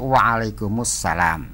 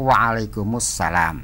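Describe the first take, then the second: First: The two words are linked into one word. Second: The same.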